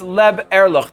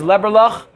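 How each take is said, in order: First: The word is said slowly with a break. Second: The word is said smoothly as one unit. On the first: It means to live honestly. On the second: It means liver.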